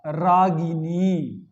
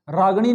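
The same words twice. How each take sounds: First: रागिनी very slow, clear गि and dental नी; correct pronunciation. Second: रागिणी short, as राग-णी with retroflex ण; wrong pronunciation. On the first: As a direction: stretch every syllable of रागिनी. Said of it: "शुद्ध है ना इनी प्रत्यय". (रागिनी का शुद्ध उच्चारण, खींचकर) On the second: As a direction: drop the middle i in रागिणी, hard ण. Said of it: "नहीं होता". (रागिणी का अशुद्ध उच्चारण, राग-णी) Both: Shown as a demonstration.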